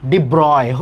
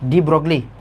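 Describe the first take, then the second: First: The name is said without any g sound. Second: The name is said with a g sound.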